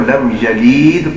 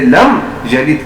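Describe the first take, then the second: First: The last vowel is stretched long. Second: The last vowel is said short. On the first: The speaker calls it wrong. "पढ़ना" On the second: The speaker calls it right. "की जगह"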